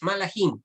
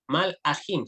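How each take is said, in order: First: It is said in the plain form, without lengthening. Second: It is said in the pausal form, with lengthening. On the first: The speaker calls it wrong. "No es malajim" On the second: The speaker calls it right. "sino malajim. Se hace una pequeña pausa"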